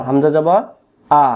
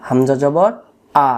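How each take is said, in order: Both takes have the same delivery.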